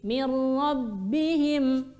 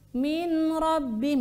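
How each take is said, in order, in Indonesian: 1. Bunyi n menyatu dengan r yang bertasydid. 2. Bunyi n tetap dibaca sebelum huruf r. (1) "Yang tepat insyaallah mir rabbihim" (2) "Ini bacaan yang salah, yang kurang tepat"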